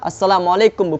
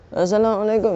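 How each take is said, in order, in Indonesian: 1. Ucapannya diucapkan keras dan jelas. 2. Ucapannya digumamkan pelan dan tidak jelas.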